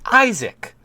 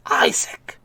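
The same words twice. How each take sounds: First: High call. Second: Breathy whisper of the name, no voice; Isaac whispered with no voice. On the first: Calling the man's name. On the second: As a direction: breathe Isaac softly, toneless. Calling the name again. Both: Acted.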